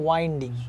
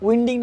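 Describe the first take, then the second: First: The first vowel sounds like 'wine'. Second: The first vowel sounds like 'win'. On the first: The speaker calls it right. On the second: The speaker calls it wrong. "উইন্ডিং না"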